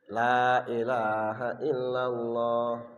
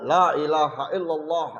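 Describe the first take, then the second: First: It is said at a normal, careful pace. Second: It is said faster, starting to rush. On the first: The speaker calls it right. "tiga puluh tiga pertama insya Allah normal" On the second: The speaker calls it wrong. "tiga puluh tiga yang kedua lah mulai ngebut"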